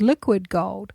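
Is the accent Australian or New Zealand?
New Zealand. It is said in a New Zealand accent. "as opposed to the Kiwi accent"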